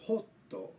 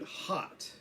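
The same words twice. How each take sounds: First: Hotto with a rounded 'oh' and added final 'to'; Japanese katakana pronunciation. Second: Hot with an open 'ah' vowel; English hot, vowel open like ah; English short o. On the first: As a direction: say hotto the katakana way, 'hoh-toh'. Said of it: "in Japanese is pronounced". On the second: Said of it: "for example, the word hot". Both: Shown as a demonstration.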